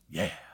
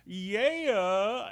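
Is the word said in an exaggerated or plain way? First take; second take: plain; exaggerated. First: It is said in a plain, ordinary way. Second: It is said in an odd, exaggerated way. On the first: The speaker calls it right. "what a reasonable person would say" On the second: The speaker calls it wrong. "he does this bizarre line reading"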